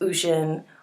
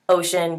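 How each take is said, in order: First: The first vowel is an 'oo' sound. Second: The first vowel is an 'oh' sound. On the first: The speaker calls it wrong. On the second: The speaker calls it right.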